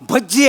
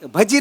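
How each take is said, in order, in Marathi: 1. मधला 'j' आवाज लांब ओढला जातो. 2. मधला 'j' आवाज छोटा आहे. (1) "भज्जी आहे" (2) "भजी नाही"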